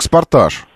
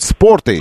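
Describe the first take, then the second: First: The name ends with an 'azh' sound. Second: The name ends with an 'eydzh' sound. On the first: The speaker calls it wrong. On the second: The speaker calls it right.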